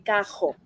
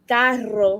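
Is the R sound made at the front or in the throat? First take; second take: throat; front. First: The R is made at the back of the throat. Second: The R is trilled with the tongue tip. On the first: "some of them say cajo" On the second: "some of us pronounce it with the like carro"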